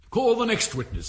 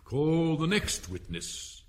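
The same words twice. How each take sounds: First: Higher and louder summons; loud call. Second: Said in the usual way. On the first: Acted. King calls the next witness loudly across the court. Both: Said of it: "said the king".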